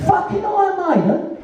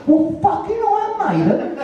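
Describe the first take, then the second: First: Higher disbelieving repeat with a laugh and rising end; incredulous, laughing. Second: Incredulous. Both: Real, not acted.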